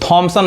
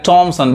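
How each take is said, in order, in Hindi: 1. नाम की शुरुआत महाप्राण 'th' ध्वनि से होती है। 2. नाम की शुरुआत सादी 't' ध्वनि से होती है। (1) "इसको थॉमसन नहीं कहेंगे" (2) "टॉमसन। बहुत लोग गलत पढ़ते हैं।"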